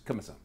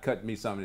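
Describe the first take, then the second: First: The phrase is clipped short and truncated. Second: The phrase is drawn out, not truncated.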